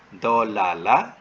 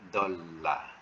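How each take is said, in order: First: Two separate l sounds with a vowel between. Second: One doubled l sound with no vowel between. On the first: The speaker calls it wrong. "jangan ditulis dolala" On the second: The speaker calls it right. "lam dengan lam kena sabdukan. Jadi bunyi dolla"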